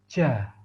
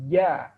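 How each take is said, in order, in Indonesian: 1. Nafas terdengar mengalir keluar bersama konsonan. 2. Konsonan terdengar jelas tanpa nafas yang mengalir. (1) "sebagian kesalahan yang sering dilakukan adalah ketika mengucapkan huruf ja, ada nafas yang mengalir. Seperti ini contohnya" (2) "Jadi yang benar adalah"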